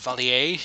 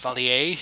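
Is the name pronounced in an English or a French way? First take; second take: French; French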